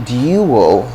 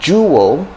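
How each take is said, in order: First: The word begins with a plain d sound. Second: The word begins with a j sound. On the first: The speaker calls it wrong. "dual is kind of becoming old-fashioned now" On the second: The speaker calls it right.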